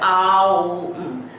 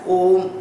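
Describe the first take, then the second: First: The vowels are split into separate sounds. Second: The vowels merge into a single sound. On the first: The speaker calls it wrong. "We should not split Om when we pronounce it" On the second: The speaker calls it right. "it must be chanted as a mantra as Om only"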